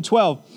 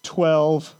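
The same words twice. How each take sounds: First: Said in the usual way. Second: A small, sheepish admission, kept low. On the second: Acted. Disciples sheepishly answering Jesus's question about the baskets, sheepish. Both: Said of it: "in a very sheepish, uh, voice".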